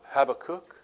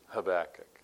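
First: The last syllable sounds like the word 'kook'. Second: The last syllable does not sound like 'kook'. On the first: The speaker calls it wrong. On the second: The speaker calls it right.

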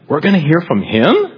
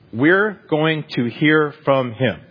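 First: The voice rises at the end like a question. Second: The voice falls at the end like a statement. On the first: "Maybe you put a question mark behind it" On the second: "Simple words are this"

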